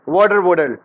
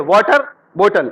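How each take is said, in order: First: It is said in an American accent. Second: It is said in an Indian accent.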